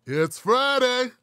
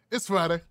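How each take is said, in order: First: High, loud, drawn-out FRIDAY; excited announcement. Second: Said in the usual way. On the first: Real, not acted. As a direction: stretch out Friday like a hype man. Hyped show opener greeting the audience.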